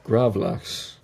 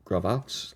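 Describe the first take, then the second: First: "gravlax," said firmly as GRAV-laks with a falling end; settled pronunciation. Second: "gravlax?" said as a hesitant question, pitch rising on the end; unsure pronunciation. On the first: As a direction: commit to "gravlax," with a confident fall. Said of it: "hopefully I pronounced that correctly". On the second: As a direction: try out "gravlax?" doubtfully, like asking if it's right. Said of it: "I don't know how to pronounce this word". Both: Real, not acted.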